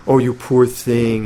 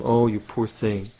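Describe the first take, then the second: First: Slow mock pity, drawn out; patronizing pity. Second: Slow, softer mock pity; a hint of a condescending sigh over the poor thing; patronizing pity. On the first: Teacher mocking selfish pity, slow and patronizing. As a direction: lightly pity them from above. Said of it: "like patronizing attitude". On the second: Imitating pity for a disabled person, lightly patronizing. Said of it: "that's patronizing sentimentality".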